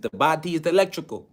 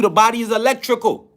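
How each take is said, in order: First: Imitated accent of the teacher, softer; Dr. Sebi's accent. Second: Said in the usual way. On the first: Lecturer quotes his teacher, in the teacher's accent. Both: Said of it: "You know, in his accent".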